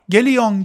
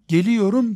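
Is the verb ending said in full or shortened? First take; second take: shortened; full. First: The ending is clipped to a short -yon. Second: The ending is said fully as -yorum. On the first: The speaker calls it wrong. "Geliyon, gidiyon değil" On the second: The speaker calls it right. "Geliyorum, gidiyorum"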